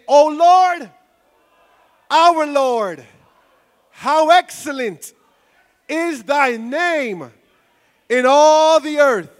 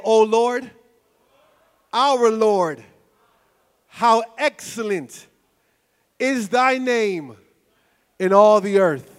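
First: It is said with more enthusiasm and energy. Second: It is said calmly, with ordinary energy.

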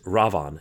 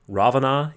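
First: The name ends without a final vowel sound. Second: The name ends with a final vowel sound. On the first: The speaker calls it right. "it's Ravan" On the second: The speaker calls it wrong. "there's no A at the end. Those are all silent A's"

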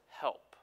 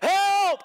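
First: It is said quietly and weakly. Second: It is screamed loudly and urgently.

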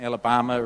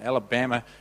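First: It is said with a New Zealand accent. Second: It is said with an American accent. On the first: "Alabama is probably the New Zealand. It's mine" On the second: "Alabama is the American pronunciation"

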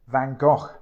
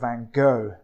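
First: The name is said the European way. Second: The name is said the American way. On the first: "I'm planning to stick with the European pronunciation" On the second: "as I think his name is pronounced in America"

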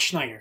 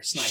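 First: The name begins with an 'sh' sound. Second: The name begins with an 's' sound. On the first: The speaker calls it wrong. "Not Schneider" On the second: The speaker calls it right.

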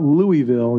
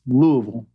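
First: The name is given an outsider's pronunciation. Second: The name is given the local pronunciation. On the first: The speaker calls it wrong. "it's not Louisville" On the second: The speaker calls it right. "you got to say it right"

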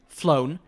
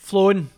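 First: The vowel is pronounced as in 'phone'. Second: The word is said with a Scottish accent. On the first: "Like phone" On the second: "say it in a Scottish accent"

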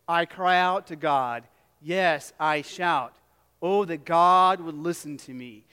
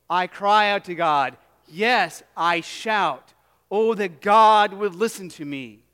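First: It is read in a flat, calm voice. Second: It is read in a loud, passionate voice. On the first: The speaker calls it wrong. "you read that" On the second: The speaker calls it right. "read with a little bit of passion"

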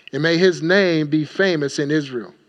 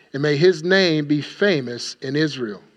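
Both takes have the same delivery.

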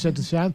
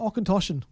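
First: The name starts directly with 'shen'. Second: The name starts with an 'och' syllable. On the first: The speaker calls it wrong. "we were calling it a Shentashan" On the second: The speaker calls it right. "Welcome to Auchentoshan"

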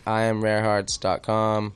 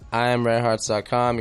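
First: It is said more slowly. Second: It is said at normal speed.

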